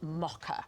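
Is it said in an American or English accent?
English. It is said with an English accent.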